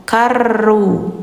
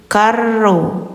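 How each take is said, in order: The two takes are said the same way.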